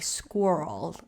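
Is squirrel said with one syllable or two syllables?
one syllable. The word is said as one syllable. The speaker calls it wrong. "as North Americans like to say"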